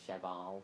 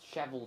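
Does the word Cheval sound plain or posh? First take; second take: posh; plain. First: The word is said in a posh, snooty way. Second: The word is said in a plain, unaffected way. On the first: "it kind of sounds, you know, like really snotty" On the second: "just doesn't seem very right"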